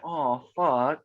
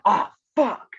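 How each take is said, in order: First: It is said in a sympathetic tone. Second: It is said in an unsympathetic tone. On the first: The speaker feels for someone else. "it means like you're sympathetic" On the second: The speaker is not feeling for someone else. "just means two different things"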